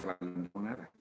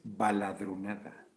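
First: "balandronada" with an added n, ba-lan-dro-na-da; the mistaken form, "balandronada" with n; wrong pronunciation. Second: "baladronada" without n, slowly, ba-la-dro-na-da; correct pronunciation. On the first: Host admits his old error, saying balandronada with n. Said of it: "yo decía balandronada". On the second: Host slowly corrects himself, baladronada without the n. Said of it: "es sin la N". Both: Shown as a demonstration.

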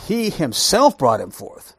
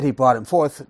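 First: "himself" drawn out and emphatic; stress on HIMSELF. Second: Said in the usual way. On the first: Shown as a demonstration. Teacher showing the Hebrew emphasis to the class, stressing HIMSELF. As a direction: lean slowly on "himself". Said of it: "it puts an emphasis". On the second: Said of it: "if it just said".

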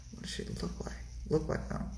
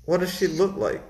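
First: Whispered repeat of "what does she look like"; hushed, thinking under the breath; covert muttering. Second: Said in the usual way. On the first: Retold or imitated. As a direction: whisper it to yourself while stalling. Mulls question covertly to himself. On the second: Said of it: "the responder's like".

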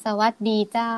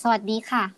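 First: Long-drawn Northern Thai lilt, rising on เจ้า; Northern Thai accent. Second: Said in the usual way. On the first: Shown as a demonstration. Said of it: "ต้องพูดยาวๆลากเสียงยาวๆ". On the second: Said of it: "สวัสดีค่ะ เป็นคำทักทาย".

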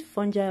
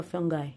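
First: Fungi said as "FUN-jai"; soft-g pronunciation. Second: Fungi said as "FUN-gai"; hard-g pronunciation. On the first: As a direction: say fungi with a j sound, like "jai" at the end. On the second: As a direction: say fungi with a hard g, like "guy" at the end. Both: Shown as a demonstration. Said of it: "Is it fungi or fungi?".

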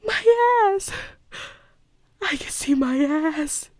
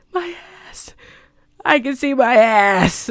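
First: High, wailing movie-line imitation; tiny, tearful melodramatic squeak; Meryl Streep. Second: Hammed-up horror, building from faint to full voice; Meryl Streep. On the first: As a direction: whimper it high and softly in mock horror. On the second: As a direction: begin tiny and high, then cry out the last line. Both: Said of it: "the perfect, you know, Meryl Streep way".

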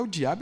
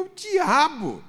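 First: Light rising question, half to himself; tentative rising "É o diabo?"; wondering question. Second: High, loud, slow "É o diabo." landing hard on diabo; slow emphatic "É o diabo." with falling end; firm declaration. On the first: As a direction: ask it as a sudden suspicion. Realizing mid-conversation with God. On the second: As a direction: declare it as a revelation. Answering his own question firmly. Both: Retold or imitated.

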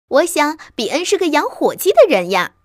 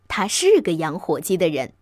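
First: Put-on high, loud child's protest; puzzled little fox. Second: Low, measured confirmation with 是 emphasised; calm father fox. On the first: Little fox wondering where turkeys are, puzzled child voice. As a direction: puzzle aloud like a small child. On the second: Father fox answering his child, calm and low. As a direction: confirm it calmly, like a patient father. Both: A narrator's reading.

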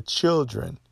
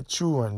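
First: Said in the usual way. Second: Put-on "children" said as "chu'ren", no L or D; Southern pronunciation. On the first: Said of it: "you say children". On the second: Shown as a demonstration. Contrasting dialects, a Southern "chu'ren" for "children". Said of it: "We don't say children".

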